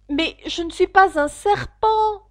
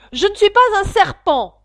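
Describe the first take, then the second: First: Said in the usual way. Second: High, loud indignant protest; Alice snaps back, offended. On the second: Acted. Alice protesting to the pigeon, loud and indignant. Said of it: "dit Alice avec indignation".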